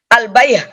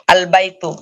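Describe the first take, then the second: First: The word ends with an h sound. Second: The word ends with a tu sound. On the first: "Kalau dia sukun bukan menjadi al-bayh, bukan" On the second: "Ini tak biasa"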